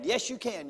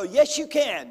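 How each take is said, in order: First: Said in the usual way. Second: High, loud pep-talk cheer; mock preacher's cheer; loud encouragement. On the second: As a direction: pump them up like a coach. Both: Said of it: "people like me go".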